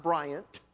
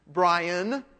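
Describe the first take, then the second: First: "Bryant" said low, with a T at the end; Bryant with final T. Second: "Brian" drawn out, ending on N; "Brian", lingering on the final N; Brian without a T. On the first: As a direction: sound the closing T in "Bryant". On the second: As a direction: say "Brian" carefully, no T at the end. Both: Shown as a demonstration. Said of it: "make sure you understand that".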